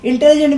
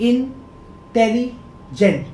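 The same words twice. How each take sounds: First: Said in the usual way. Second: इंटेलिजेंट split into three beats, इन, टेलि, जेंट; teacher counting out the syllables of इंटेलिजेंट. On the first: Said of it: "पहले देखिए हम जब बोल रहे हैं". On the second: Shown as a demonstration. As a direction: sound out इंटेलिजेंट slowly with gaps between the parts. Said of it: "तीन".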